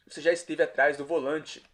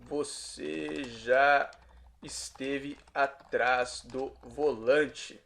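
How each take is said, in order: First: Said in the usual way. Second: Very slow, pauses between words; drawn-out, word-by-word Portuguese question; slow teaching translation. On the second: Shown as a demonstration. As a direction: stretch out each word for learners. Teacher repeats translation very slowly.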